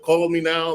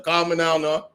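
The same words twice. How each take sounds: First: "Call" with a full l, louder; outsider's pronunciation. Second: "Call" as "cah", Jamaican accent; proper Jamaican accent. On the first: Correcting the mimic, "Call" said with its l. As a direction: say "Call" as outsiders hear it, l sounded. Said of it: "you see what you said". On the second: Showing friends the proper way, Jamaican accent with "Call" as "cah". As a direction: say it the real Jamaican way, open vowel. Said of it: "that's the proper way". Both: Shown as a demonstration.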